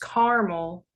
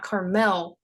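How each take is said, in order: First: It sounds like the candy word caramel. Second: It sounds like the California town name. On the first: This is how locals in Indiana say it. The speaker calls it right. "pronounced caramel like the candy" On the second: This is how tourists say it. The speaker calls it wrong. "not Carmel like the town in California"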